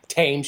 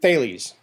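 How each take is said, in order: First: The name begins with a plain T sound. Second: The name begins with a TH sound. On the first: The speaker calls it wrong. "I was pronouncing it like the British do the Thames River" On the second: The speaker calls it right. "according to the video"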